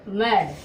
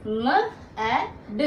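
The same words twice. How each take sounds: First: मैड said once more, short and louder; firm repeat. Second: मैड drawn out very slowly, vowel held; slow demo word. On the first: Teacher to students, firm confirming repeat of मैड. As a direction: punch मैड out crisply after the slow take. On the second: Teacher to students, slowly modelling मैड. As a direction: stretch मैड so the ऐ vowel rings clear. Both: Shown as a demonstration. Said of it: "देखो".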